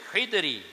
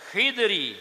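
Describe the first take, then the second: No difference in how they are said.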